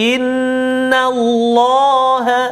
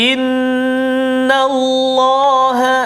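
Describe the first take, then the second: No difference in how they are said.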